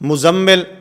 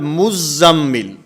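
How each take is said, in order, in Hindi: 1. बीच का व्यंजन एक बार बोला जाता है, दोहरा नहीं। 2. बीच का व्यंजन दोहरा बोला जाता है, तशदीद के साथ।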